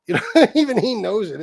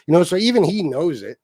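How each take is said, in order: First: Repeated through a laugh, higher. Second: Said in the usual way. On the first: Real, not acted. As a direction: chuckle while you say it again.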